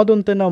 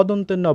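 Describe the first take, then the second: No difference in how they are said.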